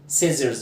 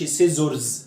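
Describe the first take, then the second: First: The ending has a reduced 'er' vowel. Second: The ending has a full 'or' vowel. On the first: The speaker calls it right. "والاو ار بنطقها اير" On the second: The speaker calls it wrong. "ما تقولش سيزرز"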